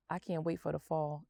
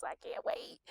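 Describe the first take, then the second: First: Said in the usual way. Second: Breathy eager whisper, much higher; excited whisper. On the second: Real, not acted. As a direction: hush it out like you can barely contain it. Whispered repeat of can't wait.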